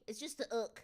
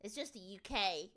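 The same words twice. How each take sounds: First: "ook" said as one short word; "ook", not spelled out as letters. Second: Said in the usual way. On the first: Shown as a demonstration. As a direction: say "ook" as a single syllable. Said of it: "They just say ook now".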